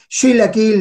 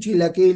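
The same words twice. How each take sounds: First: It begins with a northern 'sh' sound. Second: It begins with a standard 'ch' sound.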